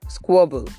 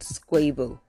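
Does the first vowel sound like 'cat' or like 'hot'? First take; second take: hot; cat. First: The first vowel sounds like the vowel in 'hot'. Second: The first vowel sounds like the vowel in 'cat'. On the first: The speaker calls it right. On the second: The speaker calls it wrong.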